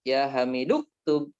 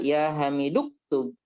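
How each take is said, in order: Both takes have the same delivery.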